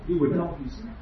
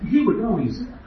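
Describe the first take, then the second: First: Said in the usual way. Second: "He" hit first and higher; stress on he. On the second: Shown as a demonstration. Preacher rebuts the professor, pressing "He". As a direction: lean on "He" in "He would know he's there". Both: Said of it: "repeated with different stress".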